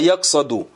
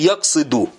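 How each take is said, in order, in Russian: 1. Во втором слоге гласная a. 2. Во втором слоге гласная i. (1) "а яксаду" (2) "Ау яксиду"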